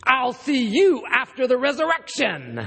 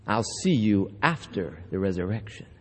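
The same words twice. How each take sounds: First: Mock threat with a laugh in the voice; menacing punchline. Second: Much lower and softer, savoured; quiet repeat. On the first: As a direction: deliver the threat as a grinning punchline. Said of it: "he looks him in the eye, he says". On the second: Shown as a demonstration. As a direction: murmur the line back to yourself. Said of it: "preacher repeats the punchline".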